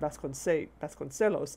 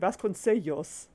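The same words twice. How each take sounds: First: The ce is soft, with a plain l. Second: The ce is soft, with a y-like l. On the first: The speaker calls it wrong. "It should just be the soft C" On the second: The speaker calls it right. "that's a double L. It should be Sellos"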